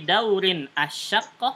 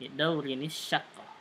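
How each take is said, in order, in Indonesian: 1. Bunyi n tetap dibaca, tapi dipisahkan dari kata berikutnya. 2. Bunyi n langsung tersambung ke kata berikutnya. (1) "bisa kita putuskan saja" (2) "dibacanya tambah nun wasal ya"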